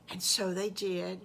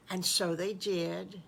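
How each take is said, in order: Both takes have the same delivery.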